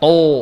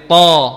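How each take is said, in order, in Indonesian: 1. Vokalnya membulat, dibuat dengan bibir dimonyongkan. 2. Vokalnya terbuka, tebal tanpa pembulatan bibir. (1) "Bukan to. Salah" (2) "tapi to"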